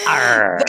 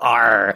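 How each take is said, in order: First: It is a sexy growl with rolled tongue. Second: It is a plain pirate-like growl.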